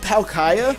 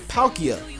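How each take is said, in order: First: The ending does not sound like Nokia. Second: The ending sounds like Nokia. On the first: This is how some other people say it. "Some people say Palkia" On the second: This is how the speaker has always said it. "I just look at it and say Palkia, like Nokia"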